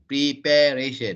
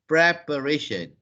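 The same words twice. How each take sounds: First: The start sounds like the verb 'prepare'. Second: The start does not sound like 'prepare'. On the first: The speaker calls it wrong. "most Malaysians will say preparation because of the word prepare" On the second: The speaker calls it right. "It is preparation"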